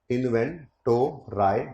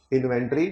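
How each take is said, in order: First: इन्वेंटोराई drawn out slowly, ending in a long "rye"; playful mispronunciation. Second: Said in the usual way. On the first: Shown as a demonstration. Teacher toying with the word inventory, playfully drawn-out इन्वेंटोराई.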